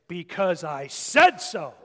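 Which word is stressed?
said. The stress falls on the word said.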